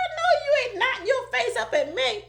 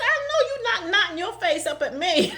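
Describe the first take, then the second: First: Laughing high retelling. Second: Laughing retelling. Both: Retold or imitated. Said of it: "Ain't I country?".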